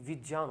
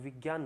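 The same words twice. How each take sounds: First: The middle consonant is said with a j sound. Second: The middle consonant is said with a g sound. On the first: The speaker calls it right. "सही उच्चारण" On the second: The speaker calls it wrong. "इसको ग बोलते हैं"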